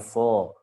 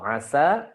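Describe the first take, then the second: First: The s consonant is emphatic and heavy. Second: The s consonant is plain and light. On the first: The speaker calls it wrong. "jangan dibaca aso" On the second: The speaker calls it right.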